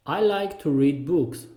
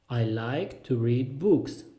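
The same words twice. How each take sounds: First: Said in the usual way. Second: Slow, spaced-out words; slow repeat. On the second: Shown as a demonstration. Teacher repeats the reading sentence for learners, slowly. Phrase drill, slower repeat.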